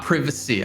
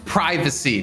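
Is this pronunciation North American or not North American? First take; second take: not North American; North American. First: It is pronounced a non-North American way. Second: It is pronounced the North American way. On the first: The speaker calls it wrong. "not privacy" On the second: The speaker calls it right. "we're in North America here, Dan. It's privacy"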